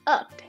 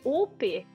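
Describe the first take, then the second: First: The vowel is an uh sound. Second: The vowel is not an uh sound. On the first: The speaker calls it right. "Ele tem um som de uh" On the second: The speaker calls it wrong. "Não, fala uh"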